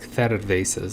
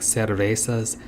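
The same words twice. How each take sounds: First: The middle consonant is a lisped th sound. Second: The middle consonant is a plain s sound. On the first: "They do this weird T H sound" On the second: "instead of the beer would be like"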